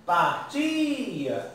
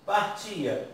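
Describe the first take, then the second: First: Long, raised TI in "Partia"; sílaba tônica destacada. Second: Said in the usual way. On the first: Shown as a demonstration. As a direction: stretch "Partia" on its middle syllable, then let it fall. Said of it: "a mais forte é o A". ("Partia" com o TI agudo e alongado) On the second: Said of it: "Partia, fora do radical".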